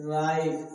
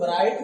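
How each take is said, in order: First: राइट starting straight on R; correct pronunciation. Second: राइट with W sounded before R; राइट said as "w-rait"; wrong pronunciation. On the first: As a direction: silent W, राइट as "rait". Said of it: "क्या बोलेंगे?". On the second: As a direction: put an extra consonant before the R of राइट. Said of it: "इसे राइट नहीं पढ़ेंगे". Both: Shown as a demonstration.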